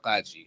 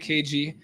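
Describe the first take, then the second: First: The name is said as one word. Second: The name is said as two letters. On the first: "the way we pronounce it in, in Arabic Chaldean is uh" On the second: "the English, I, I I say K G"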